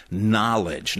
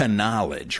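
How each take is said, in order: First: "knowledge" as NOLL-ij; silent K. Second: "knowledge" as kuh-NOLL-ij; mock mispronunciation. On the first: Showing the silent letter, "knowledge" as NOLL-ij. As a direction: normal "knowledge", starting on n with no K. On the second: Mocking the actor's error, "knowledge" as kuh-NOLL-ij. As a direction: sound the K in "knowledge" as an extra syllable. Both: Shown as a demonstration. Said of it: "The K is silent".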